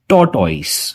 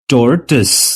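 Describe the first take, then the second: First: The second syllable has an 'oy' vowel sound. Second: The second syllable has a weak 'uh' vowel. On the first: The speaker calls it wrong. "नहीं, ये गलत उच्चारण है।" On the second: The speaker calls it right. "इस word का सही pronunciation है टोर्टिस।"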